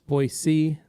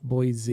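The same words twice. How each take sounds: First: The middle consonant is a hissing S sound. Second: The middle consonant is a buzzing Z sound. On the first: The speaker calls it right. "It's Boise" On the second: The speaker calls it wrong. "not Boise. ... the locals hate it when you do the Z thing"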